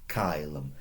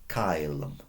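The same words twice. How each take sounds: The two takes are said the same way.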